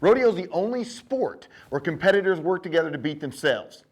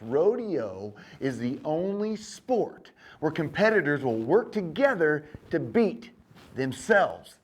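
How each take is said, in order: First: It is said at a normal speed. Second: It is said very slowly.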